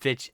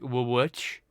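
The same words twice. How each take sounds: First: The word begins with a V sound. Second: The word begins with a W sound. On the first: The speaker calls it wrong. "as the dorks would call it" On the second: The speaker calls it right. "if you were gonna pronounce it properly"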